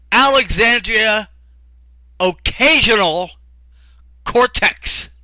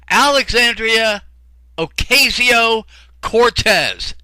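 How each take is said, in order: First: The name is said as occasional cortex. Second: The name is said as Ocasio Cortez. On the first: The speaker calls it wrong. "He says" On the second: The speaker calls it right. "I finally got it right"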